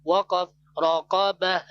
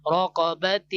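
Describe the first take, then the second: First: رقبة stopped as raqaba, the final t dropped; pausal form. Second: رقبة said raqabat, the final t sounded with a rise; full ta ending. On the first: Teacher demonstrating the waqf stop, dropped ending. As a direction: drop the ta and end رقبة on an open a. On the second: Teacher reading before the pause, full t ending. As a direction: read رقبة as raqabat, the t kept. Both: Shown as a demonstration. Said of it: "whenever we performing the waqf".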